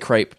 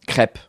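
First: It is said the American way, vowel drawn out. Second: It is said the French way. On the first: "Americans say crepe" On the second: "And in France?"

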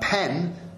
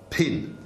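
First: The vowel is an open e sound. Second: The vowel is raised toward an i sound.

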